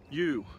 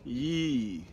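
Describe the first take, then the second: First: The vowel is said with clear lip rounding. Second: The vowel is said with little lip movement. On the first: The speaker calls it right. "It's not that difficult to say" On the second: The speaker calls it wrong. "They say ye, ye. There's no movement. There's no enunciation"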